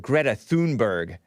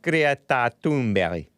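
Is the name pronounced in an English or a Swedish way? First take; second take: English; Swedish. First: The name is pronounced the usual English way. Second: The name is pronounced the Swedish way. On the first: The speaker calls it wrong. "a lot of you guys call her" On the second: The speaker calls it right. "she's Swedish and it's pronounced"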